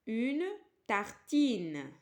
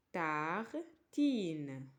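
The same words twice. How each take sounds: First: Tartine said loud and clear, louder than the lines around it; loud model word. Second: Tartine stretched slowly over each syllable, tar-tine, pitch low; slow model word. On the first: Teacher calling out tartine to the pupils, loud. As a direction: announce tartine boldly to the class. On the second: Teacher repeating Tartine slowly for children to copy. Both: Shown as a demonstration.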